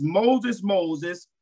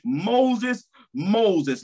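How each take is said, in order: First: Said in the usual way. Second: Calling out. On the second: Acted. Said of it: "God called".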